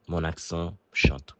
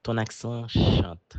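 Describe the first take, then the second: First: Said in the usual way. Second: Higher, drawn-out quote of a remark; quoted remark. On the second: Retold or imitated. Someone in Canada remarks on his accent, quoted high and slow. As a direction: quote it slowly, lifting the pitch. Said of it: "quelqu'un m'a dit: «Ton accent chante.»".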